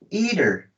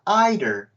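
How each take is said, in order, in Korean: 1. 첫 모음이 'ee' 소리입니다. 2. 첫 모음이 'eye' 소리입니다. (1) "E로 발음하거나" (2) "I로 발음하거나"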